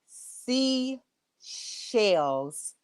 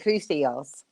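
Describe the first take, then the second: First: The name is said slowly and carefully. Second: The name is said quickly and runs together. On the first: The speaker calls it right. "I had to say it slow" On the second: The speaker calls it wrong. "If I say it fast"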